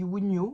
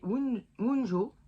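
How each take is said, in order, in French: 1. La consonne du milieu ressemble à un 'y'. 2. La consonne du milieu ressemble au 'j' français. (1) "en fait ça se dit Wunyo" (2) "moi je continue à dire Wunjo"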